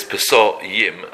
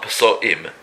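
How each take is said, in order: First: Pesoyim with a y glide into "yim"; "Pesoyim", drawn out, gliding through the silent aleph. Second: Pesoim with a break before the final "im"; "Pesoim" with the aleph voiced as a separate vowel onset; aleph sounded. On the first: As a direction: say "Pesoyim" slowly as Peso-yim. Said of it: "and the aleph is silent". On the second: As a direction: say "Pesoim" as Peso-im, no y glide. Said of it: "'cause it's not Pesoim". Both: Shown as a demonstration.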